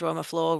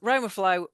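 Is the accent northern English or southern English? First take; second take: northern English; southern English. First: It is said in a northern English accent. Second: It is said in a southern English accent. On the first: The speaker calls it wrong. "you have an accent that comes from kind of Leeds North" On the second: The speaker calls it right. "as if it does from down south"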